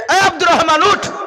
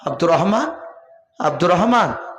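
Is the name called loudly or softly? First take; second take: loudly; softly. First: The name is shouted loudly. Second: The name is called softly.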